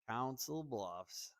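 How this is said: It is said with a drawn-out Southern accent.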